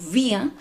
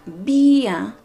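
First: The vowel is short and clipped. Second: The vowel is long and drawn out. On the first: It sounds like the pronoun for 'we'. The speaker calls it wrong. "Si nosotros decimos vía, cortito" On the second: It clearly means beer. The speaker calls it right. "cuando hacemos ese sonido de la I larga"

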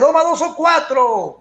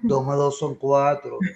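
First: It is said in a lively, animated tone. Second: It is said in a flat, bored tone.

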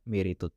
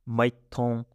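First: The word is said in its full form. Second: The word is said in a shortened form. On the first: "We don't say that" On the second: "We say maiton"

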